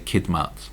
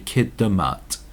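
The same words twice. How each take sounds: First: The d runs straight into m, no vowel. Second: A short uh vowel separates d and m. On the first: "I don't pronounce the uh so much" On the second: "others say kidmat"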